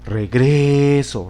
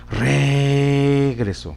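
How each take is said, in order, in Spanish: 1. El acento está en la segunda sílaba. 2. El acento está en la primera sílaba. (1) "Si lo ponemos en la penúltima sílaba" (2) "Vamos a ver si lo observamos en la antepenúltima sílaba. En la re"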